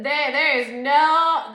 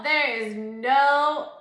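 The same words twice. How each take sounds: First: Loud, slow and emphatic; emphatic drawn out. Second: Sung, loud, slow singsong. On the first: Ranting about being put in a room with her exes, loud and slow. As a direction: lean hard on every word, stretching it out. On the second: Sung, ranting about being put in a room with her exes, singsong. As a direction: sing the words out mockingly. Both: Real, not acted.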